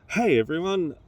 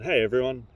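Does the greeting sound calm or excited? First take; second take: excited; calm. First: The greeting is said in an over-excited way. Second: The greeting is said in a calmer way.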